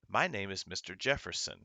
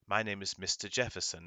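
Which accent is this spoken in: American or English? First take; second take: American; English. First: It has an American accent with hard R sounds. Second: It has an English accent with soft R sounds. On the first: "The American accent has a hard R" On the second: "Someone from England would say"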